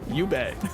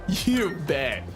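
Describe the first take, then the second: First: It is said with toned-down, low energy. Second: It is said with lively, enthusiastic energy.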